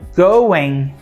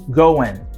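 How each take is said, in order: First: The word ends with a velar ng sound. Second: The word ends with a plain n sound. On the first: "A palavra going, ele termina com um som que é o nha" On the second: "with the N sound"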